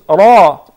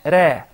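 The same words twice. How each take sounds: First: The r is heavy, with a full dark sound. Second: The r is light, with a thin sound. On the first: The speaker calls it right. "Mufakhama means, like what we said before, it is ra" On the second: The speaker calls it wrong. "not ra"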